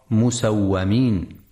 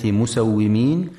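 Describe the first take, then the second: First: مسومين with fatha on waw, musawwamin; مسومين misread musawwamin, a after the w; wrong reading demo. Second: مسومين with kasra on waw, musawwimin; مسومين said musawwimin, i after the w; correct reading. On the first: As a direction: show the error: مسومين as musawwamin. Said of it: "فلا يقرأ مسومين". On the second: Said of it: "لكسر الواو وعدم فتحها". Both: Shown as a demonstration.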